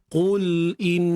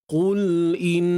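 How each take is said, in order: No difference in how they are said.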